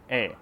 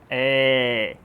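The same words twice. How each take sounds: First: The vowel is an ordinary open E. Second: The vowel is much more open, nearly an A. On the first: "O E normal, que a gente acha que é, é o E aberto, é assim" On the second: "Esse E é bem mais aberto"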